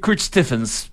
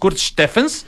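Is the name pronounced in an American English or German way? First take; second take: American English; German. First: The name is pronounced in an American English way. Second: The name is pronounced in a German way. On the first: This is how it is said in the United States. "si vas a Estados Unidos, te van a decir Kurt Stephens" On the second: This is how it is said here. "pero aquí es Kurt Stephens"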